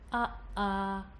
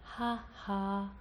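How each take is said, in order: First: Each vowel starts with a sharp glottal stop. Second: Each vowel starts with breath, a small h. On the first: "the speech quality sounds" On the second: "the breathy ones"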